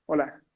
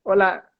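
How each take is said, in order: First: Softer hello with no smile at all; dull, unsmiling greeting, softer. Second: A hello with an audible smile; cheerful smiling stage greeting. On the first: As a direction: say hello without smiling. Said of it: "es mucho mejor a". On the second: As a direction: greet the audience through a smile. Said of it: "si tú ves a alguien sonriendo". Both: Shown as a demonstration.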